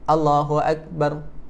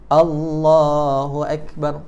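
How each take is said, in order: First: The vowel in Allah is cut short. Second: The vowel in Allah is held long. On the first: The speaker calls it wrong. "jangan Allahu Akbar" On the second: The speaker calls it right. "macam tu"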